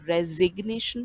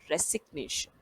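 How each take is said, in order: First: The middle consonant is a z sound. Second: The middle consonant is an s sound. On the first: The speaker calls it right. "एस को ज यानी कि जेड के sound के साथ pronounce किया जा रहा है" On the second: The speaker calls it wrong. "ना कि रेसिग्नेशन"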